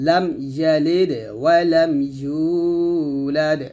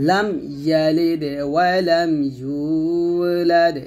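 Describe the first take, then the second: No difference in how they are said.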